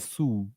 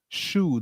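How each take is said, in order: First: The word begins with a plain s sound. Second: The word begins with an sh sound. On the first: The speaker calls it wrong. "they say su" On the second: The speaker calls it right. "they don't say shoe"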